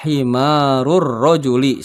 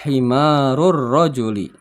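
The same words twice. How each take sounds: First: Himarur rojuli said slow and clear; slow model reading. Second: Said in the usual way. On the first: Shown as a demonstration. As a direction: read Himarur rojuli slowly for pupils to repeat. (bacaan lambat untuk ditirukan) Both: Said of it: "Silahkan diikuti".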